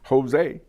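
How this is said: It is said with an American accent.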